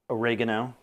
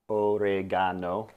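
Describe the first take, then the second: First: Said in the usual way. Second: "oregano" slowly, each syllable sounded out Korean-style; Korean pronunciation. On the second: Shown as a demonstration. Cook reading the label in Korean, "oregano" slowly syllable by syllable. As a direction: stretch "oregano" into even syllables, o-re-ga-no. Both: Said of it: "or as it says in Korean".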